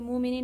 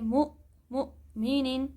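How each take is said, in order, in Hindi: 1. बीच का हिस्सा बिना किसी अटकाव के सहजता से बहता है। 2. बीच में गले में एक झटकेदार अटकाव है। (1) "मुमिनिन नहीं पढ़ेंगे" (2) "इसको पढ़ेंगे ... हमज़ा साकिन को झटके से पढ़ा जाता है"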